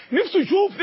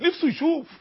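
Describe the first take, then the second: First: نفسه said higher and louder, yearning; rising longing. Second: Said in the usual way. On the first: Acted. (شوق متصاعد على نفسه)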